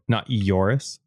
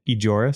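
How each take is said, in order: First: The middle consonant is a Y sound. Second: The middle consonant is a J sound. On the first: The speaker calls it wrong. "Sometimes the J is a Y" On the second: The speaker calls it right. "Is that how you say it?"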